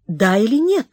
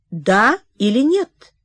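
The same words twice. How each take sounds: First: Said in the usual way. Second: Slow, pressing "Да или нет?"; slow insistent repeat. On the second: Acted. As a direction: press for the answer slowly. (медленно, настойчиво «Да или нет?») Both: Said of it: "повторил он".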